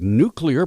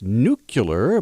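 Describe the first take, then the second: First: The middle part sounds like 'klee'. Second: The middle part sounds like 'kyuh'. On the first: The speaker calls it right. "the word nuclear" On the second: The speaker calls it wrong. "pronounced nuclear by the president"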